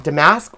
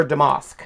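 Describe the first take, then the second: First: Damask with a short A as in "mask"; second syllable of Damask said "mask"; pronunciation option. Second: Damask with a broad "ah", like "duh-MOSK"; pronunciation option. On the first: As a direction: say Damask to rhyme with "ask", American style. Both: Shown as a demonstration. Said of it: "I always say this wrong. Is it".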